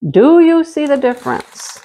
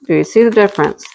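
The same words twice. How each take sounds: First: Lifted excited question; 1 high eager question. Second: Said in the usual way. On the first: Pretend. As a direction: coax the viewers to look closely. Repeats question, first higher.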